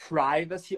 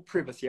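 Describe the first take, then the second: First: "privacy" as PRY-va-see; long i variant. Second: "privacy" as PRIV-a-see; short i variant. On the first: Teacher says either is fine, long i privacy. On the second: Teacher says either is fine, short i privacy. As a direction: say "privacy" starting like "privilege". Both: Shown as a demonstration. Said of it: "tanto faz se você quer falar".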